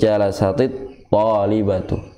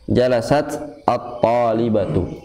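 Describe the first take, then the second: First: The t of jalasat takes an i vowel linking on. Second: The t of jalasat has no vowel after it. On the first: The speaker calls it right. "jadi bacanya itu" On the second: The speaker calls it wrong. "cara bacanya itu bukan"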